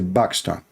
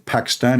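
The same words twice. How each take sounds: First: The word begins with a B sound. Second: The word begins with a P sound. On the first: This is the Arabic way of saying it. "In Arabic we say Pakistan. We don't have P in Arabic" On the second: This is the English way of saying it. "in English you say Pakistan"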